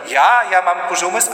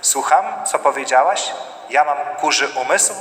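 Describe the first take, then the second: First: Higher, louder indignant retort; offended outrage. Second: Level, asking to confirm; calm checking question. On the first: Insulted spouse firing back, loud and high. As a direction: bristle at the insult, voice jumping up. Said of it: "I ktoś powiedział". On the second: Spouse calmly asking for feedback, level voice. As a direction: check what you heard, without heat. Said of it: "jakby ktoś użył informacji zwrotnej". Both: Acted.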